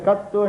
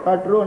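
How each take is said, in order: First: The middle consonant is a doubled t. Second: The middle consonant is a tr cluster. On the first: This is the reading Telugu speakers use for ease. "ఇక్కడ కత్తు" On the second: This is how native Tamil speakers say it. "కట్రు అంటారు"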